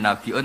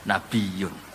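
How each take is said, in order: First: A glottal stop separates the middle vowels. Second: A y glide replaces the glottal stop. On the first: This is the reading that keeps the hamzah. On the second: This is a lightened reading that drops the hamzah.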